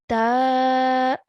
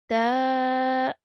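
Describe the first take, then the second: First: The vowel is held for two counts. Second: The same.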